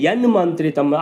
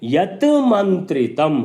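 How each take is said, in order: First: The t becomes a nasal n before mantritam. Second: The first word ends with a separate t sound.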